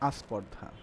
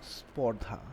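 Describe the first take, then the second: First: An extra 'a' vowel comes before the cluster. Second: The word begins directly with the consonant cluster.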